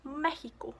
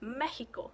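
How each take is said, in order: First: It is said with a Spanish pronunciation. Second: It is said with a Spanish pronunciation.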